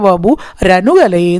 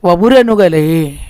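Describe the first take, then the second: First: It is split with a break before "ranukalaye". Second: It is said joined as one word without a break. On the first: The speaker calls it wrong. "വപു രനുകലയെ എന്ന് വായിക്കരുത്" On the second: The speaker calls it right. "അവിടെ gap വരരുത്"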